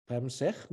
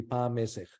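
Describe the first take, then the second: First: "Pamsech" run together as two syllables, stress on "sech"; Coptic-based pronunciation. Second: "Pa Mesech" in three syllables, stress on "Me"; Egyptological pronunciation. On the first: Teacher to student, reconstructing the word from Coptic, "Pamsech" stressed on "sech". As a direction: say "Pamsech" with the vowel after "Pa" dropped and the weight on "sech". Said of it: "I'm assuming the stress goes on the second syllable".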